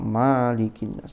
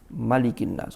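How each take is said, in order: First: The first vowel of malik is long. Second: The first vowel of malik is short. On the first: The speaker calls it wrong. "Gak ono sing maca malikin nas, ndak ada" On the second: The speaker calls it right. "semua qurra juga membaca tanpa alif"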